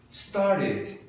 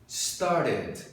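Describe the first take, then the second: No difference in how they are said.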